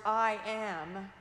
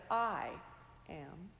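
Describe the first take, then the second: First: "I am" with the weight on "am"; "I am", punching "am"; stress on AM. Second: "I" raised and pushed, "am" dropping away; "I am", punching "I"; stress on I. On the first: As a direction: lean on "am" in "I am". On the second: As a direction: lean on "I" in "I am". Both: Shown as a demonstration. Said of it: "emphasizing the words".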